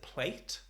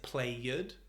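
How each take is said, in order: First: The ending sounds like a T. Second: The ending is an extra 'id' syllable.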